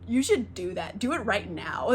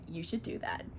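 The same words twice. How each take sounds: First: Firmer repeat of "You should do that"; retold nudge with "do" pushed; insistent coaxing. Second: Low, soft retold suggestion; understated nudge; coaxing. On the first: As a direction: press "You should do that" at normal volume, more urgently. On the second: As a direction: drop it in quietly, like a sly hint. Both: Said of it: "talking her into it".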